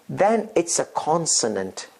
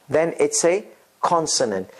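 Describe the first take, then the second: No difference in how they are said.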